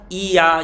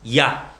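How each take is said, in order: First: A separate i vowel comes before a. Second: A barely heard i glides straight into a. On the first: "이 아를 굉장히 빨리 하면 이야" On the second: "앞에 이는 날 듯 말 듯 하면서 아 발음이 바로 나오죠"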